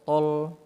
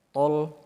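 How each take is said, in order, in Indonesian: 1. Bunyi l-nya tebal. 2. Bunyi l-nya tebal.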